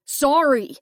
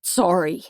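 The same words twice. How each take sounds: First: Higher and louder, frightened second sorry; beg, voice rising in fear; panicked pleading sorry; desperate plea. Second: Said in the usual way. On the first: Acted. Captive begs forgiveness.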